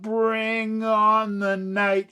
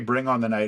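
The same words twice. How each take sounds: First: The phrase is slowly drawn out. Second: The phrase is said plainly and quickly.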